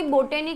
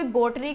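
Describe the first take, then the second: First: बोटेनी said as bo-TE-ni with three syllables, long o; pronounced bo-te-ni. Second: बॉटनी said as BOT-ni with two syllables, open o; pronounced bot-ni. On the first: Teacher showing the variant बोटेनी, three syllables. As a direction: say बोटेनी with the extra e in the middle. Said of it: "कोई बोटेनी कहता है". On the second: Teacher contrasting with the two-syllable बॉटनी. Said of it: "कोई बॉटनी कहता है". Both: Shown as a demonstration.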